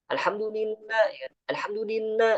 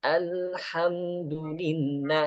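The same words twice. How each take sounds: First: Alhamdulillah pitched high and hurried; hurried recitation. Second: Alhamdulillah slow and even; slow recitation. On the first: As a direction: say it quickly, wrong. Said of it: "Al-Fatihahnya gini". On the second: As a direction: say it gently and slowly. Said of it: "pelan-pelan aja". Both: Shown as a demonstration.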